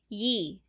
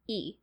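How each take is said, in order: First: A y sound is added to the vowel. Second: The vowel is said plainly, with no y sound. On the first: "they pronounce it Yi. With, like, a Y" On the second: "It starts off for us usually with like a hard like delineation"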